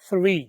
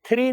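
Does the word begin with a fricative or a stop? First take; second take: fricative; stop. First: It begins with a soft th fricative. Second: It begins with an aspirated t stop. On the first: The speaker calls it right. "आपने क्या बोलना है" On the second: The speaker calls it wrong. "आपने थ्री नहीं बोलना"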